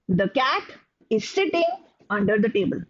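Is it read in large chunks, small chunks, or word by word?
small chunks. Pauses split it into a few short groups. "there can be some who make groups out of it"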